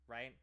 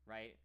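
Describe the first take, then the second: The two takes are said the same way.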